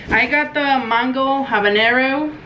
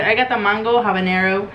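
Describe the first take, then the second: First: Slow drawn-out. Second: Said in the usual way. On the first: Shown as a demonstration. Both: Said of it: "This sounds stupid".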